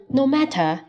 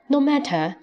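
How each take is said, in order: First: The t in matter is a crisp t. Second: The same.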